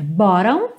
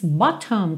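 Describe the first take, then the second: First: The t is soft, almost like a quick d. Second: The t is crisp and clearly released. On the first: "numa pronúncia mais americana" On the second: "com um T bem marcadinho"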